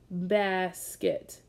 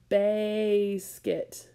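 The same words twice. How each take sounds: First: The first vowel is a short 'ah' sound. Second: The first vowel is a long 'ay' sound. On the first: The speaker calls it right. "I'm going to try with the short vowel sound first" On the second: The speaker calls it wrong. "Let's try it with a long A sound"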